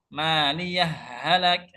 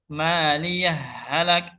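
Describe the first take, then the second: The two takes are said the same way.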